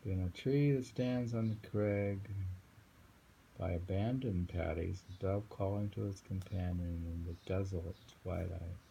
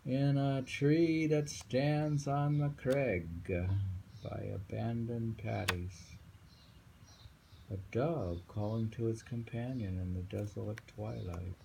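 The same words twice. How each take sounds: First: Just read it through gently; calm poem reading. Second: Poem reading. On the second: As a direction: read out like a recital, stretching each word. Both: Acted.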